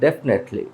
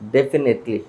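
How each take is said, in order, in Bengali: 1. এটি সংক্ষিপ্ত করা হয়, মধ্যের স্বরধ্বনি বাদ দেওয়া হয়। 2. এতে মধ্যের স্বরসহ চারটি স্পষ্ট সিলেবল আছে। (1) "বাট এটা উচ্চারণটা হবে জাস্ট ডেফনেটলি" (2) "আমরা এটাকে বলি ডেফিনেটলি"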